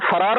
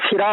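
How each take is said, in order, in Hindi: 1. पहले अक्षर में 'a' स्वर है। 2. पहले अक्षर में 'i' स्वर है। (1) "फरार नहीं" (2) "बल्कि फिरार होता है"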